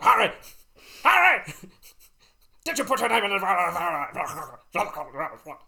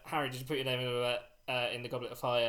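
First: The line is shouted aggressively and urgently. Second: The line is said calmly and quietly.

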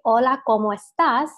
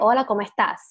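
First: The final s of estás is clearly pronounced. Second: The final s of estás is dropped or weakened. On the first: "if you were to say" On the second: "We say, ... we don't really pronounce our S's as much"

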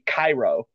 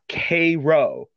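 First: It is pronounced the way Egypt's capital is. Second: It is pronounced the southern Illinois way. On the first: It refers to the city in Egypt. The speaker calls it wrong. "if you say it like how in Egypt it would be" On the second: It names the ship after the Illinois city. The speaker calls it right. "I did not mispronounce that. It is the USS Cairo"

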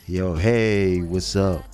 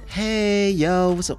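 First: It is said with a deeper, bassier voice. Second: It is said in his normal voice.

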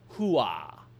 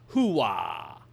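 First: The second syllable has little W sound. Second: The second syllable has a strong W sound. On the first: The speaker calls it right. "The real version is closer to" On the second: The speaker calls it wrong. "far too much of a W sound on the second syllable"

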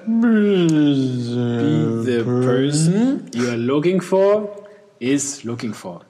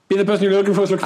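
First: It is read at a slow pace. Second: It is read at a fast pace.

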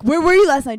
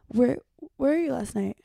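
First: It is said in an aggressive, confronting tone. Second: It is said in a calm, quiet tone. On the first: The speaker calls it wrong. "You're not like" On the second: The speaker calls it right. "come in a calm voice. You go"

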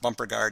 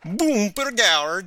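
First: The name is pronounced in a plain way. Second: The name is pronounced in an exaggerated way. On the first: "sometimes they just say it as" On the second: "sometimes they really exaggerate it"

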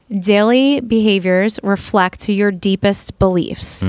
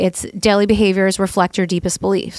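First: It is said more slowly. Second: It is said at normal speed.

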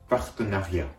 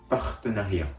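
No difference in how they are said.

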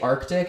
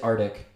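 First: The c sound before the t is pronounced. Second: The c sound before the t is dropped. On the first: The speaker calls it right. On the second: The speaker calls it wrong.

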